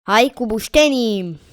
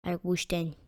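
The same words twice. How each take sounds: First: Rallying cry. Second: Low-key, very soft decision to oneself; quiet muttering. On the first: Player decides to build with logs, rallying cry. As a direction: call it out like a cheer. Louder repeat of muttered decision. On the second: Player settles on using logs, quiet muttering. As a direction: say it softly under the breath. First quiet take of same words. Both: Real, not acted.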